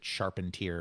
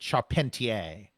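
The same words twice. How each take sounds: First: The name is given an American pronunciation. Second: The name is given a non-American pronunciation. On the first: This is how the name's owner probably says it. "since he's American, he probably pronounced it Charpentier" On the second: This is how the speaker is inclined to say it. "I want to pronounce it Charpentier"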